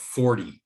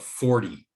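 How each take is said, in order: First: The middle T is a quick D-like flap. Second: The same.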